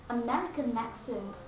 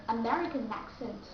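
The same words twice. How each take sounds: The two takes are said the same way.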